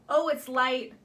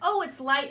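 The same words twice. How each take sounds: First: It is said in a neutral tone. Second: It is said in a happy tone.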